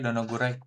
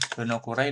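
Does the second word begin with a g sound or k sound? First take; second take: g sound; k sound. First: The second word begins with a voiced g sound. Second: The second word begins with a voiceless k sound.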